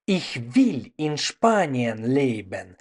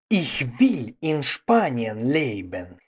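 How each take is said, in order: Both takes have the same delivery.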